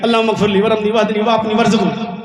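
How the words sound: It is said flippantly, like a joke. The person is not taking the prayer seriously. The speaker calls it wrong. "ऐसे नहीं ... ये तो मजाक कर रहे हैं आप।"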